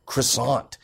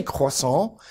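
First: "croissant" said the English way, hard r and final t; anglicized pronunciation. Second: "croissant" said the French way, silent final t; French pronunciation. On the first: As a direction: say "croissant" as kruh-SAHNT. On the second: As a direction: say "croissant" as in French, kwa-SAHN. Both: Shown as a demonstration. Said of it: "You have to pronounce it wrong".

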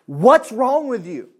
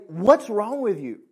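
First: Slow, drawn-out Southern preacher, a touch higher; lightly put-on Southern American accent, louder. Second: Said in the usual way. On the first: Southern accent, preacher scolding his own soul. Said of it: "he spoke of it in a very southern way". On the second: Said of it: "grab your soul and put it in front of you and say".

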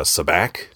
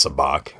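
First: "sabacc" said sa-BACK, with the flat a of "back"; "sabacc" with a short flat a, sa-BACK; mispronounced sabacc. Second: "sabacc" said sa-BAHK, with the open ah of "father"; "sabacc" with a long open ah, sa-BAHK; correct sabacc. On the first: Retold or imitated. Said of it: "he intentionally mispronounces it". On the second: Shown as a demonstration. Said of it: "He knows it's sabacc".

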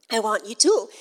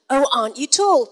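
First: Imitated Irish accent, vowel in "tall" towards "tool". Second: Said in the usual way. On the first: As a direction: quote her in an Irish accent. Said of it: "she said it in your beautiful accent". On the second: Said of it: "But she said it in your beautiful accent, not mine".

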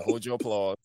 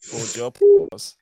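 First: Said in the usual way. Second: Louder mock hush of the crowd; milking the applause. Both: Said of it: "All right, everybody".

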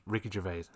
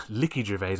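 First: Said in the usual way. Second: "Ricky" said as "Licky", with an L for the R; mispronounced name. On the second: Shown as a demonstration. Speaker mocking their own slip, "Ricky" mispronounced as "Licky". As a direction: laughingly echo the slip, turning "Ricky" into "Licky". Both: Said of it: "I know you said there".

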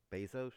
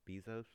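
First: Bezos said as BAY-zohs, questioning; alternate pronunciation. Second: Bezos said as BEE-zohs, questioning; alternate pronunciation. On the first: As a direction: say "Bezos" with an AY in the first syllable. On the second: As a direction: say "Bezos" with a long EE in the first syllable. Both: Shown as a demonstration. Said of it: "heard it a couple of different ways".

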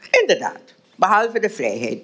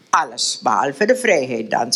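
First: Put-on higher voice for the older lady, conceding; lightly voiced mistress, agreeing; a hint of a gracious older woman; Elisabeth agreeing. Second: Put-on lower, dry voice for young Willem; lightly voiced young man, pointed; Willem's reply. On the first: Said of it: "beaamde Elisabeth". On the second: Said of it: "zei Willem". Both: A narrator's reading.

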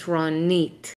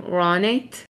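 First: Ronit with the last syllable, nit, stressed. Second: Ronit with the first syllable, Ro, stressed. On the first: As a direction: say "Ronit" the Israeli way, landing on NIT. The emphasis is on the Nit. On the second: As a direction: say "Ronit" the American way, hitting RO. Americans would usually pronounce my name. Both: Shown as a demonstration.

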